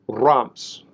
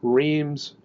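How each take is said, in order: First: It is said with a French-style pronunciation. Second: It is said with an American pronunciation. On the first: The speaker calls it right. "the pronunciation should be closer to" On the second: The speaker calls it wrong. "in the U S, we typically pronounce it"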